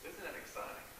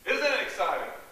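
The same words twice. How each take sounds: First: It is said quietly, in an indoor voice. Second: It is said loudly and excitedly.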